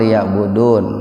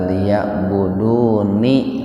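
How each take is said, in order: First: The word ends on n with no vowel. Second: The final n is followed by an i vowel. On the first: "Ketika dibaca itu memang liya'budun" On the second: "Nah itu nunnya di kasroh itu"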